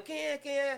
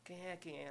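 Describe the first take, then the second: First: High-pitched quick query; higher voice, imitating a teammate; retold teammate's question. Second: Much softer retold teammate's voice; voice behind a door. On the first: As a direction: quote a teammate asking in a raised pitch. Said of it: "Aí o César Sampaio". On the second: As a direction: quote a muted voice calling from inside a room. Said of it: "eu vi aquela voz lá".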